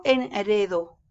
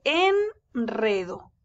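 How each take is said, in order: First: "enredo" misread with a weak single-tap R; soft tapped R. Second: "enredo" slow, long "en", then a trilled R; strong rolled R. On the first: Teacher showing what one doesn't say, soft R. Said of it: "Yo no digo". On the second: Teacher showing how it is said, strong rolled R. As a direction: draw out "en" and roll the R in "enredo". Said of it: "se dice". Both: Shown as a demonstration.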